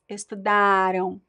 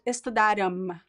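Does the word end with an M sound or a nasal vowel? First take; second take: nasal vowel; M sound. First: The word ends with a nasal vowel sound. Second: The word ends with a clear M sound. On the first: The speaker calls it right. "It's estudaram. On, on" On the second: The speaker calls it wrong. "It is not estudaram. There is no M"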